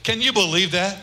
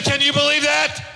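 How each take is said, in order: First: Said in the usual way. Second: Higher, louder rerun of the question, stress on believe; emphatic repeat. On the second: Shown as a demonstration. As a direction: hit believe hard so the question lands. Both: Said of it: "I said".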